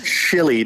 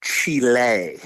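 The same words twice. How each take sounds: First: Chile said chilly, English style. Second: Chile said chee-lay, Spanish style. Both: Shown as a demonstration.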